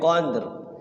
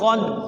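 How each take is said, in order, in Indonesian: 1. Bunyi R di akhir jelas diucapkan. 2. Bunyi R di akhir tidak diucapkan. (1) "bacanya harus pendek, qadr" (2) "jangan qad ... R-nya enggak bunyi"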